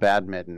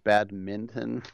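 First: The n sound before the t is dropped. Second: The n sound before the t is pronounced. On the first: The speaker calls it wrong. "it's not badminton" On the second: The speaker calls it right. "as I pronounce the N, like Greg Minton"

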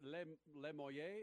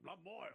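First: The name is given a French-style pronunciation. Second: The name is given a plain American pronunciation. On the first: The speaker calls it wrong. "I tried to go French" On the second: The speaker calls it right. "it's as damn as American as you"

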